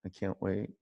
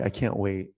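First: Much softer echo of the line; soft longing repeat; quiet repeat. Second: Said in the usual way. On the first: Real, not acted. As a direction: say it again under your breath. Repeated, dropping to near whisper.

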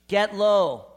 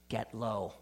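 First: Loud preached command; strong, ringing "Get low." to the congregation; forceful exhortation. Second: Low and soft, almost a murmur; hushed "Get low." spoken gently; quiet exhortation. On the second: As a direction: say "Get low." softly, sinking down. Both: Shown as a demonstration.

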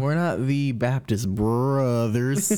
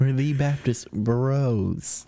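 First: NOT stressed, slow and drawn out. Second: "bros" said slowly and deliberately; slow, emphatic "bros"; slow, stressed correction. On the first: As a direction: lean hard on NOT, said slowly. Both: Shown as a demonstration.

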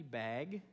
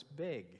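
First: Student's drawn-out "bag" with open a; standard pronunciation. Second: Teacher's "big" for bag, imitated; Minnesota pronunciation. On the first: Retold or imitated. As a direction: question "bag" slowly, vowel as in cat. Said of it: "one of the students goes". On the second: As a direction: correct softly to "big", bag with a raised vowel. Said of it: "the teacher said".

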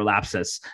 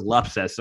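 First: Lapsus with a flat a, LAP-sus; Lapsus, second way. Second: Lapsus with an uh vowel, LUP-sus; Lapsus, first way. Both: Shown as a demonstration. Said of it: "depending on how you say it".

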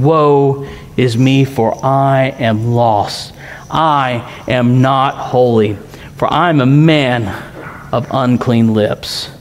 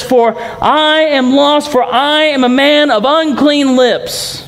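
First: Hushed lament. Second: High, slow, pleading prophet's cry; Isaiah's cry. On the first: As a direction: let it sink low and slow, humbled. Preacher voices Isaiah's lament. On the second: Preacher voicing Isaiah before God, high and slow. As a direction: lift the voice high and slow, like a man undone. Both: Acted.

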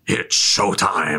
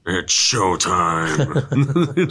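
First: Slow, lightly voiced villain line; Thanos voice. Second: Slow drawn-out villain line, lightly voiced; Thanos voice. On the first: Ending the mimicked trailer, slow villain drawl. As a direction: drag it out like a smug villain. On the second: Quoting Thanos to a friend, a slow villain drawl. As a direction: savour it like a cocky villain. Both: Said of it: "Just the Thanos voice".

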